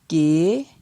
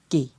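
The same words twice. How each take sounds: First: The syllable is said on a rising tone. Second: The syllable is said on a low tone. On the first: "Ton montant" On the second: "Et pour un ton bas"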